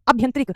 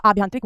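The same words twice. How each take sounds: First: अभ्यंतरिक opened with short "a"; wrong form. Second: आभ्यंतरिक opened with long "aa"; correct form. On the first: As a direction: say अभ्यंतरिक as "abh-yan-trik". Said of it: "अभ्यंतरिक नहीं होता". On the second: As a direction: say आभ्यंतरिक as "aabh-yan-trik". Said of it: "आभ्यंतरिक होता है". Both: Shown as a demonstration.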